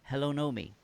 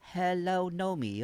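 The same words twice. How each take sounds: First: It is said in the speaker's usual accent. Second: It is said in a Chinese accent.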